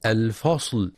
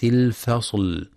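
First: الفصل with a dark, thick "fa"; heavy fa mistake. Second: الفصل with thin f and l; light fa and lam. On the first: Teacher showing what not to read, heavy fa in الفصل. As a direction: darken the vowel after f in الفصل. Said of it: "بالتفخيم". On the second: Teacher showing the correct word, light fa in الفصل. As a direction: keep the vowel after f in الفصل light and front. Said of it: "لترقيق الفاء واللام". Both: Shown as a demonstration.

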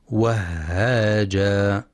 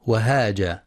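First: Slow وهاجا with a long, breathed double h; doubled ha. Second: وهاجا with a single short h; undoubled ha mistake. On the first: Teacher showing the correct reading, doubled h in وهاجا. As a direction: hold the h in وهاجا, then stretch the vowel. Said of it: "والصواب تشديدها". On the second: Teacher showing how some misread it, single h in وهاجا. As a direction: say وهاجا quickly, without doubling the h. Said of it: "بدون تشديد الهاء". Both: Shown as a demonstration.

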